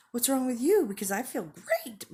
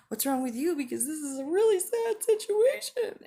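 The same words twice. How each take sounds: First: High, loud gushing mock cheer; hammed-up elation, pitched way up; overly happy. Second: Hammed-up wail, very high and loud; mock overwrought distress, pitch climbing; severely sad. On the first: Speaker mimics someone in an overly happy mood swing, hammed-up glee. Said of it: "overly happy". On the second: Speaker mimics someone in a severely sad mood swing, mock wailing. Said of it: "or severely sad".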